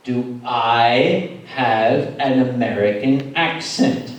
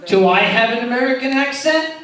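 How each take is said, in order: First: Low, drawn-out challenge; slow, emphatic question. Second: Loud, higher challenge to the crowd; mock-indignant question. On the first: Acted. Asking the crowd again about his accent, slow emphatic delivery. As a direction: stretch every word, low and deliberate. Repeats challenge slowly to audience. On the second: Asking the crowd about his accent, loud mock indignation. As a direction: throw it out loudly, pitch lifted.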